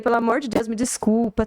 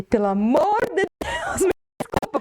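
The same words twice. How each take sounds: First: Said in the usual way. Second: Pleading apology. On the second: Retold or imitated. Client retelling the audio message sent to the musician, pleading apology. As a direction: beg forgiveness, reenacting your own embarrassed audio message.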